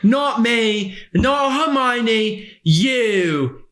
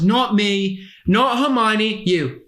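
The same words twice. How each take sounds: First: The final word is drawn out long. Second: The final word is said short and quick.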